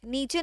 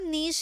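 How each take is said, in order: First: The word ends with a 'chay' sound. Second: The word ends with a 'sh' sound. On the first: The speaker calls it wrong. "नीचे नहीं है बेटा" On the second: The speaker calls it right. "नीश है ये"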